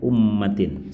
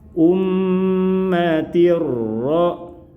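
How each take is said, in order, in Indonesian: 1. Bunyi n di akhir terdengar jelas. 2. Bunyi n menyatu menjadi bunyi r ganda. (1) "terdengar jelas suara n-nya" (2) "perhatikan perubahan bunyinya saat dipertemukan dengan huruf ro"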